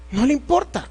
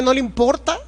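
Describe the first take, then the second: First: No le importa stated flatly, falling on le; falling statement. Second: No le importa asked with a rising question tune. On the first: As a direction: answer No le importa with a firm falling tune. Preacher answers his own question. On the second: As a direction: ask ¿no le importa? as a challenge, rising at the end. Preacher asks then answers himself. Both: Acted.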